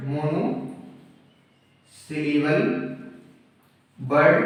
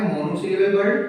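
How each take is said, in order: First: "monosyllable word" in separate chunks with long pauses; broken into parts. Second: Said in the usual way. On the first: Shown as a demonstration. Teacher dictating a term to students, "monosyllable word" chunk by chunk. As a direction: dictate "monosyllable word" piece by piece, each part rising.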